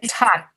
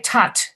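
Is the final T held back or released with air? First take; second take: held; released. First: The final T is held without air. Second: The final T is released with air. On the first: The speaker calls it right. "we don't expel air" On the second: The speaker calls it wrong. "We don't say tot"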